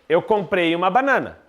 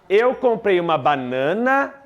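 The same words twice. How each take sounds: First: The voice falls to a final close. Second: The voice stays suspended, sounding unfinished.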